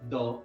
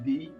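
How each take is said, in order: First: The word is pronounced 'thuh' with a short vowel. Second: The word is pronounced 'thee' with a long vowel. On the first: The next word begins with a consonant sound. "if the beginning sound of that noun is a consonant sound, then we have to use the" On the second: The next word begins with a vowel sound. "if the beginning sound of that noun is vowel sound, then it will be the"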